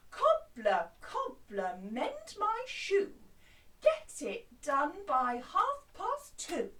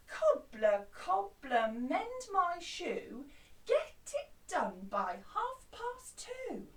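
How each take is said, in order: First: Loud, slow, demanding; bossy voice. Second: A touch bossy, slow and firm; mildly demanding, drawn out; bit bossy. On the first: Customer ordering the cobbler to hurry, bossy and loud. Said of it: "with a very bossy voice". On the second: Customer pushing the cobbler for a deadline, a touch bossy. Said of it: "they're being a bit bossy". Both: Shown as a demonstration.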